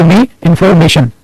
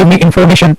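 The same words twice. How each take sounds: First: Very slow, each word spaced out; "Give me information" read out slowly for students to copy; slow dictation. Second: Said in the usual way. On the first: Shown as a demonstration. Teacher dictating to the class, slow and deliberate. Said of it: "inform भी नहीं बोला आपने". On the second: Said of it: "आपने बोला".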